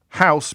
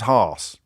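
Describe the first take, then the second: First: It is said in a standard Southern accent. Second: It is said in an Estuary English accent.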